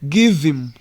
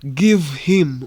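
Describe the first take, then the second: First: The words are reduced and run together. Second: Each word is said fully and separately. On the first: "we say give him" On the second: "in first speech ntabwo tuvuga ngo give him"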